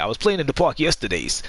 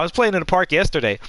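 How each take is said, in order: First: It is said in a New York accent. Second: It is said in his plain usual accent.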